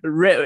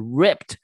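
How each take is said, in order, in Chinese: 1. 这个单词结尾没有任何 -ed 音。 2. 这个单词结尾有一个可以听到的 -ed 音。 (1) "不然你就发rip 的话，就是rip" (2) "是ripped 那个ed"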